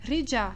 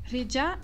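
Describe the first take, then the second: First: The middle is one blended j-like sound. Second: The same.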